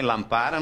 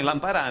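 First: Lampara wrongly stressed on PA; stress on middle syllable. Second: Lampará wrongly stressed on the final RA; stress on last syllable. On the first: Teacher showing a wrong reading of lampara, middle syllable stressed. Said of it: "Não é lampara". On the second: Teacher showing a wrong reading of lampará, last syllable stressed. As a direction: push the stress in lampará to the end. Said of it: "não é lampará". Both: Shown as a demonstration.

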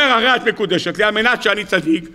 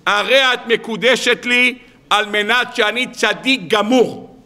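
First: Said in the usual way. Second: Mock solemn vow. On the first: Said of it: "אומר". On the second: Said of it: "ניגש לרעייתו לעתיד ואומר לה".

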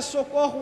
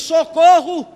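First: A quiet, casual socorro with no alarm; not a shout. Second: Socorro called out louder as a real cry; a sudden cry for help. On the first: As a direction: say it softly, as if nothing is wrong. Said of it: "ele não vai gritar". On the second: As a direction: call out socorro as if badly hurt. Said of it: "ele dá o grito e diz". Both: Shown as a demonstration.

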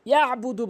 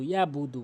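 First: ইয়াবুদু with a throat squeeze after ya; correct ayn. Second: ইয়াবুদু with no ayn; smooth open "yaa-budu"; common mispronunciation. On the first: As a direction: press "ya'-budu" from mid-throat. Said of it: "বলতে হবে". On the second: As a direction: glide through ইয়াবুদু without a throat catch. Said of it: "আইনের উচ্চারণ করেই না". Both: Shown as a demonstration.

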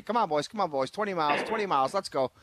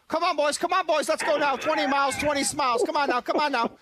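First: Said in the usual way. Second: High, loud rah-rah cheerleading; fake hype. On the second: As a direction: pump up the bench, way up high. Pouting player suddenly hyping team.

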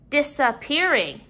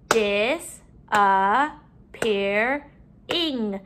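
First: Said in the usual way. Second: "Disappearing" very slowly, in four beats; syllable by syllable. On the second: Shown as a demonstration. Teacher counting syllables in the word, broken up. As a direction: stretch and separate each syllable of "Disappearing". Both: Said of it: "break up our syllables".

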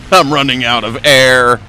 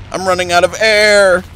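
First: Said in the usual way. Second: Higher, alarmed repeat; higher and tenser; rising alarm. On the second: Real, not acted. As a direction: say it again with alarm climbing. Same line repeated higher.

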